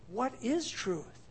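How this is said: The question is asked in a sincere tone. The asker genuinely wants to know the answer. "Did he say it sincerely?"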